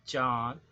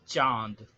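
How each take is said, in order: The two takes are said the same way.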